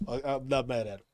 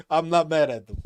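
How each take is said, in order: First: Said in the usual way. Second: "not" hit hard and loud; louder insistence; insistent. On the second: Shown as a demonstration. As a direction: protest loudly that you're not mad.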